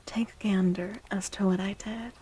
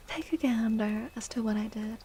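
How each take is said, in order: Both takes have the same delivery.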